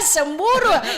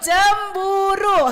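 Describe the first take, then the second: First: The word begins with an s sound. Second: The word begins with a ch sound. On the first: The speaker calls it wrong. "bukan semburu" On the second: The speaker calls it right.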